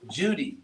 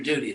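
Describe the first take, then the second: First: The word starts with a J sound. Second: The word starts with a plain D sound.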